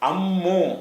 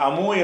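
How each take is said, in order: First: The m sound is doubled and held long. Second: The m sound is short and single. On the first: The speaker calls it right. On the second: The speaker calls it wrong. "அந்த அமு என்று சொல்லாமல்"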